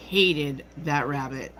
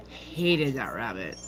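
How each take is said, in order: First: Said in the usual way. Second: A slow, low, quiet echo of the grudge; low bitter repeat. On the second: Real, not acted. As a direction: lower and softer, slow and resentful. Bitter repeat about mom.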